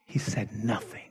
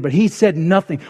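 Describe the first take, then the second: First: Dropped to a soft, hushed aside. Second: "he" pressed firmly, falling at the end; stress on he. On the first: Preacher to congregation, hushing Moses' silence. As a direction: let it fall almost to nothing. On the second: Preacher to congregation, stressing "he" firmly. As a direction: lean on "he" in "but he said nothing". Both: Shown as a demonstration.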